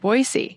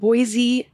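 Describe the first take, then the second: First: The middle consonant is an s sound. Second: The middle consonant is a z sound. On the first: This is how locals say it. "if you want to sound like a local ... you better pronounce it Boise" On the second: This is how people from outside the area say it. "we pronounce it Boise as well with the Z"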